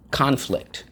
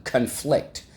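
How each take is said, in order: First: "Conflict" as CON-flict, high then falling; stress on first syllable. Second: "Conflict" as con-FLICT, short first vowel; stress on second syllable. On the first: Teacher points out the accent to pupils, first-syllable stress. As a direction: hit the first syllable of "Conflict" in a higher pitch. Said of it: "Accent on the first syllable". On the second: Teacher introduces the next word to pupils, second-syllable stress. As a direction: keep the first half of "Conflict" weak and lift the second. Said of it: "it can also be conflict". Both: Shown as a demonstration.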